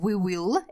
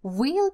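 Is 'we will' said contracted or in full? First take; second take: full; contracted. First: The two words are said fully and separately. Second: The two words merge into one short syllable. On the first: "вы можете сказать и полную форму we will, это тоже будет правильно" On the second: "Здесь я соединяю, использую короткую форму we plus will"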